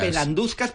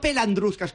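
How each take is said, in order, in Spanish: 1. Ningún sonido r sigue a la d. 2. Un sonido r sigue a la d. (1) "Es pelanduscas" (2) "que está mal dicho pelandruscas"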